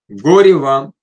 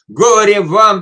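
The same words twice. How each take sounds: First: It is said sternly but without malice. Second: It is said with strong emotional intensity. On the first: The words are a firm warning without ill will. "это можно сказать строго, но без зла" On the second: The words carry strong emotion. "с таким эмоциональным накалом"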